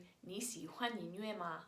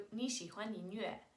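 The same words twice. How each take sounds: First: "你喜欢音乐吗" with 吗 added at the end; Mandarin question. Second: "你喜欢音乐" as a Mandarin statement. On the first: Teacher turning statement into question, Mandarin "你喜欢音乐吗". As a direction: ask "你喜欢音乐吗" without lifting the ending. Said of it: "then you're asking a question". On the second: Teacher contrasting statement and question, Mandarin statement "你喜欢音乐". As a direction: state "你喜欢音乐" evenly, not asking. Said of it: "turns into". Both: Shown as a demonstration.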